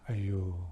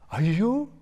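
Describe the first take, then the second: First: It sounds full of pity and sympathy. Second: It sounds like a delighted surprise.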